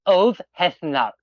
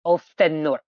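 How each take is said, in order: First: Ulfhethnar said "ulv-heth-nar", the f softened to v; corrected Old Norse pronunciation. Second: Ulfenor said as three parts, "olf-en-nor"; mistaken Old Norse pronunciation. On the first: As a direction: say Ulfhethnar with a clear h and th. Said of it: "The H modifies the F". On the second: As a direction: say Ulfenor without any h or th, ending in "nor". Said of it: "I wasn't even close". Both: Shown as a demonstration.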